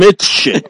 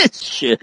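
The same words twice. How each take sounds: First: Said in the usual way. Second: Whispered "It's shit." with no voice at all. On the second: Shown as a demonstration. A friend whispering a verdict on Bells Beach, breathless.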